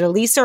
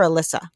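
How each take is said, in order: First: Alyssa said as "uh-LEE-suh"; long-ee pronunciation. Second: Alyssa said as "uh-LISS-uh"; short-i pronunciation. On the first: Host checking guest's fiancée's name, Alyssa as uh-LEE-suh. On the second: Host offering the other name option, Alyssa as uh-LISS-uh. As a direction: say Alyssa with a short i, rhyming with Melissa. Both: Shown as a demonstration. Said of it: "Is it Alyssa or Alyssa".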